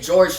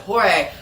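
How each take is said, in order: First: It sounds like the English name George. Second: It is said with Spanish sounds, like hor-heh. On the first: The speaker calls it wrong. "I used to say George Jimenez" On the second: The speaker calls it right. "I found out you pronounce it Jorge"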